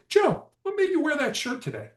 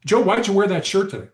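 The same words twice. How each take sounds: First: Softer question. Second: Accusing question. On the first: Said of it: "That's a softer question". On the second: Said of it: "why questions sound accusatory". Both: Shown as a demonstration.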